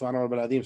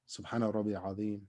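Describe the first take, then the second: First: The phrase is recited very fast, rushed. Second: The phrase is recited slowly and calmly. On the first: The prayer is rushed without focus. The speaker calls it wrong. "like one hundred miles per hour" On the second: The prayer is calm and focused. The speaker calls it right. "just take a pause. You can take a breath"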